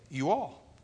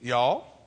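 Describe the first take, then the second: First: It is said as two full words. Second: It is squeezed into one contracted word. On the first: The speaker is not from Texas. "you have to say" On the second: The speaker is from Texas. "you're from Texas"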